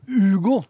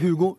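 First: The name begins with a vowel, no H. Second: The name begins with an audible H sound. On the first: The speaker calls it right. "Uten H" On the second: The speaker calls it wrong. "Uten H, ikke Hugo"

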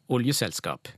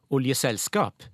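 First: The stress is on the first syllable. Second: The stress is on the last part, selskap. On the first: "først det skal ligge på olje, på oll" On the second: "derfor vil det egentlig være logisk at du lar trykket der"

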